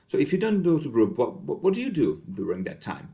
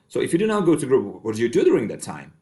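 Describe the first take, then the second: First: The question sounds warm and nurturing. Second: The question sounds stern and judgmental. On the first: The listener feels genuinely cared about. The speaker calls it right. "Which can be perceived as more nurturing instead" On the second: The listener feels criticized for skipping group. The speaker calls it wrong. "This might be felt as more um, judgmental"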